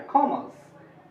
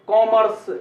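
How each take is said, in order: First: commerce as high KAW, falling to r-less mus; first syllable stressed. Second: commerce with a sounded r, "ko-mars"; mistaken r reading. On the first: Teacher correcting the mistake, first-syllable stress. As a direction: lift कॉ, let मस fall. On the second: Teacher quoting the mistake, sounded r. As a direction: pronounce the r in commerce. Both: Shown as a demonstration. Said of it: "ये नहीं बोलना है".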